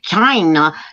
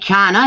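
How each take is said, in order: First: The word is said in an exaggerated mimicking way. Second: The word is said in an ordinary way. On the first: "He said China. ... the way he was saying the word China" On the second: "it didn't say China"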